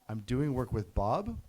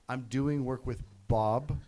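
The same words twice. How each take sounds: First: It ends rising, like an unsure question. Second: It ends falling, like a firm statement.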